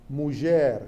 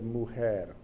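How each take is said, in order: First: It is spoken with a Judeo-Spanish pronunciation. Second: It is spoken with a modern Spanish pronunciation. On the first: "some words and some pronunciations that are different" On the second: "instead of"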